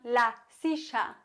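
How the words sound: The double L sounds like sh, Argentine-style.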